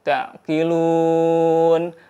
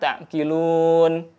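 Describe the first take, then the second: First: The stretched vowel is held for four counts. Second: The stretched vowel is held for two counts. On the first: "boleh empat harokat" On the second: "boleh dua harokat"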